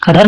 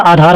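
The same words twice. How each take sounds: First: आधार said as "adhaar"; short-a आधार. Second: आधार said as "aadhaar"; long-a आधार. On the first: Teacher showing the error, short a opening आधार. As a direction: shorten the first vowel of आधार. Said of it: "आधार नहीं होता". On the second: Teacher correcting, long आ opening आधार. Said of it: "आधार होता है". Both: Shown as a demonstration.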